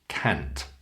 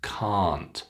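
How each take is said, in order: First: The vowel is said short. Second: The vowel is said long. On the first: The speaker calls it wrong. "Don't pronounce it short like can't" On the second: The speaker calls it right. "So keep it long"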